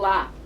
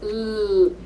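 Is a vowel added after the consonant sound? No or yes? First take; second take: yes; no. First: The l sound is followed by a vowel. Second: The l sound is held alone, no vowel. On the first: The speaker calls it wrong. "they put an A onto the sound" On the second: The speaker calls it right. "You have to really isolate that sound"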